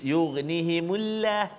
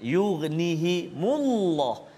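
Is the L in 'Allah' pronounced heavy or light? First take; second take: light; heavy. First: The L in Allah sounds light and thin. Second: The L in Allah sounds heavy and thick. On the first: The speaker calls it wrong. "tak boleh baca nipis" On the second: The speaker calls it right. "sebelum huruf uh, lam baris depan"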